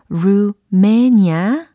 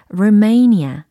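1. 두 번째 음절은 짧은 'meh' 소리입니다. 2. 두 번째 음절은 강세가 있고 길게 끄는 'may'입니다. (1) "루메니아 아니고" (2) "may 이렇게 끌고 가줘야 된다라는 겁니다. 이음절 강세예요"

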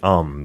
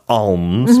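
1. 그 단어는 편안한 방식으로 발음됩니다. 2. 그 단어는 의도적으로 과하게 또박또박 발음됩니다. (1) "편안하게 발음하면 되겠습니다" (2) "It's not over pronounced. It's not like alms"

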